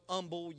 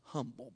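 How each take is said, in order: First: The first H sound is dropped. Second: The first H sound is pronounced. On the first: The speaker calls it wrong. "you can't even pronounce the H" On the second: The speaker calls it right. "It's humble, by the way"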